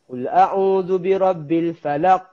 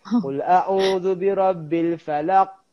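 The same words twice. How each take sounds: First: The final q is held silent with no bounce. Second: The final q bounces with an exaggerated burst. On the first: "silent je" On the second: "ada juga yang lantun dia over"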